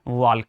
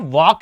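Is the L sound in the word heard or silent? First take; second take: heard; silent. First: The L sound is clearly pronounced. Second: The L sound is silent. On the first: The speaker calls it wrong. "ना कि वॉल्क है" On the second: The speaker calls it right. "तो ये वॉक है"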